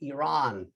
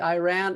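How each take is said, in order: First: It does not sound like 'I ran'. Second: It sounds like the two words 'I ran'. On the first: The speaker calls it right. "The country is Iran" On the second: The speaker calls it wrong. "I said I never ran to that country"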